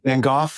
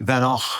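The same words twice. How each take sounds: First: The name is said the British way. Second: The name is said the Dutch way. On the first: "Brits, of course, say Van Gogh" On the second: "the folks that I um, know in the Netherlands say Van Gogh"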